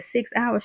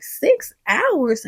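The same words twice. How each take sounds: First: Said in the usual way. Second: Higher, disbelieving question on "Six hours"; incredulous echo. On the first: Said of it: "And she said". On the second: Retold or imitated. Denise reacts to the airport delay, incredulous. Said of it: "She's like".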